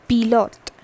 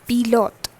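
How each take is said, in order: Both takes have the same delivery.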